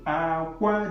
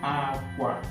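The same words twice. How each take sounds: First: The final syllable is on a high tone. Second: The final syllable is on a low tone. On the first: It no longer means clothes. "if I pronounce it with high tone" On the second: It means bed. "I put low tone, coming down"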